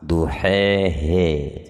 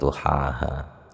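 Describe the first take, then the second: First: The final vowels are tilted toward an e. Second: The final vowels are pronounced as an open a.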